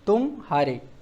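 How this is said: There is a short pause after 'tum'. It means 'you lost'. "थोड़ा विराम दिया"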